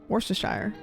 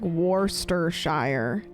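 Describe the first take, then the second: First: The word is said quickly in one run. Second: The word is said slowly, syllable by syllable. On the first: "it sounds right when you say it fast enough" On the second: "if I were to break it down"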